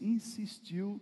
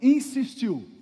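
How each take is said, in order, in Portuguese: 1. A palavra é dita de leve e sem força. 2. A palavra é dita alto e com força. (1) "Se você insistir assim" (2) "Mas tem que ser mais forte, né?"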